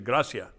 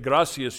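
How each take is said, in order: First: The final s sound is dropped. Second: The final s sound is pronounced. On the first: "you say gracia. They chop everything off" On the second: "When you say gracias"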